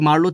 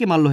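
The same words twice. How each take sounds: First: The r sound is kept before the l. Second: The r is dropped and the l doubled. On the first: "মারলো থেকে" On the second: "রকার লোপ ... পরেরটা আবার দ্বিত্ব"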